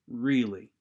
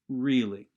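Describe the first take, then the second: Both takes have the same delivery.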